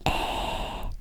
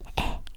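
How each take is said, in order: First: The vowel is long, with the mouth open wide. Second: The vowel is short, with the mouth less open. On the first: "you can pronounce it with the mouth wider and longer" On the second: "you can pronounce it with the mouth shorter and less"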